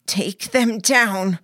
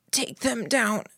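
First: Slow, louder and fiercer, leaning on each word. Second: Croaked. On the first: Narrator repeats the order to Mary, fiercer. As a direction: drive the order home, hard and deliberate. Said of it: "I said again, fiercer". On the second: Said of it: "I croaked". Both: A narrator's reading.

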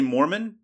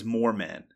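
First: "Mormon" as the religion's name; intended word Mormon. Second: "Moorman" read as spelt, moor plus man; misspelt word Moorman. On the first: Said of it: "it's supposed to say Mormon". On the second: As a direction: sound "Moorman" out as written, in two parts. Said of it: "but it says Moorman". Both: Shown as a demonstration.

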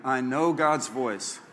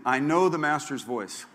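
First: Slower, deliberate confession; slow repeat. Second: Pastor leads a spoken confession; congregation repeat. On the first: Pastor has church repeat it slowly. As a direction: draw each word out. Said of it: "Say it again". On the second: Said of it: "Say this with me". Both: Shown as a demonstration.

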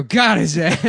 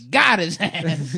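First: Put-on loud cackling old lady; grandma voice. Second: Put-on slow, drawn-out old lady; grandma voice. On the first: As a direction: shout it like a rowdy grandma. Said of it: "you can hear the grandma go". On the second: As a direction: stretch it like a cackling grandma. Repeating the grandma line.

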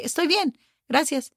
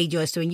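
First: "Estoy bien" lifted higher, lightly; recommended version. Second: Said in the usual way. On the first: Shown as a demonstration. Teacher shows what you say instead, lifted. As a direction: offer "Estoy bien, gracias" higher in pitch. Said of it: "You say". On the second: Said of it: "you don't need to say".

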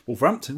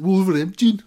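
First: Said in the usual way. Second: "Wolverhampton" with a Black Country twang, pitched higher and louder and swallowed; Black Country accent. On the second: Retold or imitated. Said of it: "in that accent".

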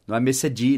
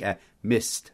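First: "missed" said as two syllables, "mesedi", with a spoken E D; the wrong way, "missed" as "mis-ed"; wrong pronunciation. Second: "missed" in one syllable, ending in a light T, "mist"; "missed" as "mist", barely touching the final T; right pronunciation. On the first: Teacher showing the student's error: "missed" with an extra syllable. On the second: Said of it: "Só um T bem leve no final". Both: Shown as a demonstration.

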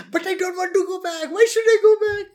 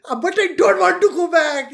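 First: Much higher, rising to a loud indignant whine; John Oliver whine. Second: Higher, pleading mock whine; John Oliver whine. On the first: Retold or imitated. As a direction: squeal the protest like a comic. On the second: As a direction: play the protesting victim, comically. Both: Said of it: "this is how John Oliver does it".

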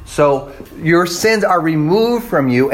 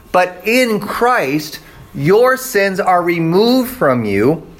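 First: Said in the usual way. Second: "in Christ" langzaam en nadrukkelijk; slow stress on in Christ. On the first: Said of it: "repeated sermon line". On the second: Shown as a demonstration. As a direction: lean on "your sins are removed" slowly. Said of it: "sermon emphasis, slow".

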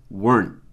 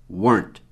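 The two takes are said the same way.

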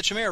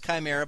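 First: Chimera said the speaker's own way; own pronunciation of Chimera. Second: Chimera said "kai-MEH-ra", hard K. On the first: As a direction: say Chimera as the caster prefers it. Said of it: "but you pronounce it incorrectly". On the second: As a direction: say Chimera starting like "kite". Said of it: "some of you pronounce it Chimera". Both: Shown as a demonstration.

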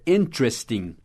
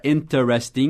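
First: Interesting in three syllables, "IN-tres-ting"; American pronunciation. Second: Interesting in four syllables, "in-ter-es-ting"; full-syllable pronunciation. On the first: Teacher showing how Americans say it, interesting as "IN-tres-ting". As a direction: drop the first e in "interesting". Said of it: "Vai ser interesting". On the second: Teacher showing what no American says, interesting as "in-ter-es-ting". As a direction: sound every e in "interesting". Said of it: "nenhum americano vai falar assim". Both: Shown as a demonstration.

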